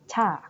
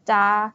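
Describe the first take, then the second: First: The first consonant has a slight puff of air. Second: The first consonant has no puff of air. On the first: The speaker calls it right. "sedikit ada hanya gitu ya menjadi Cha" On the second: The speaker calls it wrong. "Kita ngomongnya bukan Cha gitu"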